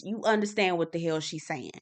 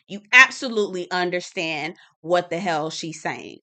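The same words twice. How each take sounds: First: Said in the usual way. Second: Emphatic repeat, punching "absolutely"; stress on absolutely. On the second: Shown as a demonstration. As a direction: hammer home the word "absolutely".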